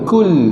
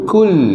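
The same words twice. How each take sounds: No difference in how they are said.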